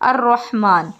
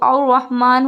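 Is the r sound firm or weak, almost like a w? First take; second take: firm; weak. First: The r is firm with a light trill. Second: The r is weak and sounds like w. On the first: The speaker calls it right. "जैसे कि अर्रहमान" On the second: The speaker calls it wrong. "अगर यहाँ पुर नहीं करते तो और रहमान होता और रा की जगह वाव समझ में आता"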